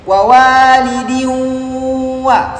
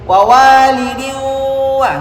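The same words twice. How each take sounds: First: It is read with open nose and nasal hum. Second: It is read with the nose pinched shut. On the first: "Contoh dengan dengung" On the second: "Saya tutup hidung. ... Enggak bagus bunyinya"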